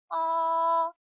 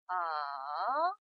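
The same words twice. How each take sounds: First: The pitch stays high and level throughout. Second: The pitch dips low, then rises again. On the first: "일성은 솔에서 솔로 가는 음입니다" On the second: "레에서 도로 내려왔다가 파까지 올라가죠"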